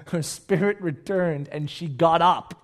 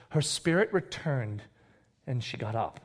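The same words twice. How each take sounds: First: Slow, deliberate scripture line; measured, weighty statement in one run; emphatic reading. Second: Subdued, reverent delivery; hushed reading. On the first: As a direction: repeat it firmly, stretching the key words. Repeats the miracle more firmly. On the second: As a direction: read it with quiet awe, pausing midway. Reads the miracle, first take. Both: Acted.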